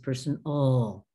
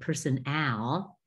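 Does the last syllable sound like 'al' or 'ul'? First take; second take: ul; al. First: The last syllable is a reduced 'ul' sound. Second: The last syllable is a full 'al' sound. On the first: The speaker calls it right. "the suffix is ol" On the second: The speaker calls it wrong. "if you said personal, uh, not as close"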